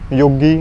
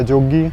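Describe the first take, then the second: First: The word begins with a Y sound. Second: The word begins with a J sound.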